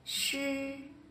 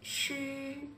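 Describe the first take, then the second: No difference in how they are said.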